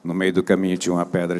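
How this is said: It is read in a cold, detached way.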